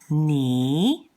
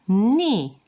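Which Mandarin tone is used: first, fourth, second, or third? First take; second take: second; fourth. First: It is said with the second tone. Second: It is said with the fourth tone. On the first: "The next one is ni" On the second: "the fourth one is ni"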